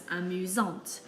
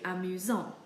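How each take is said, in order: First: AMUSANTE ending in a clear T; sounded T. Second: AMUSANT ending on a nasal vowel; silent T. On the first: Teacher describing a girl as funny, sounded T. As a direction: say feminine AMUSANTE, T heard after the nasal. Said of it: "we have to pronounce the T". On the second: Teacher describing a male as funny, silent T. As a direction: say masculine AMUSANT without the T. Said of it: "now we have to pronounce the T". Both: Shown as a demonstration.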